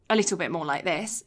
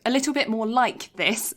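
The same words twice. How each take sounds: First: "like" said loosely, its K barely there; K softened in like. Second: "like" said properly with a crisp final K; K sounded in like. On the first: Showing co-host the accent used at home, K softened in "like". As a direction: let the K slip in "like". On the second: Correcting herself to speak properly, clear K in "like". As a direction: articulate the K at the end of "like". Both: Shown as a demonstration. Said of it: "There's a K in like".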